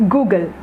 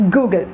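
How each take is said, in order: The two takes are said the same way.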